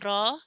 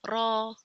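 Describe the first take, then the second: First: The r sound is soft and light. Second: The r sound is thick and heavy. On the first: "with soft sound" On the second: "we read it with thick sound, heavy sound"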